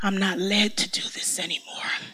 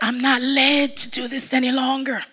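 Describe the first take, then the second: First: It is said at normal volume. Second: It is said noticeably louder.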